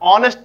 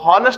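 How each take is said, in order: First: The word starts directly with a vowel sound. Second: The word starts with an audible h sound. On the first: The speaker calls it right. "ऑनेस्ट पढ़ते हैं" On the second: The speaker calls it wrong. "इसको हॉनेस्ट नहीं पढ़ते हैं"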